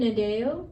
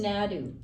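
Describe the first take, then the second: First: The surname is said in the French-style pronunciation. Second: The surname is said in the Turtle Mountain pronunciation. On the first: This is how the family in the south says it. The speaker calls it wrong. "I'm saying it wrong" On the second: This is how the person herself says it. The speaker calls it right. "She says Nadu"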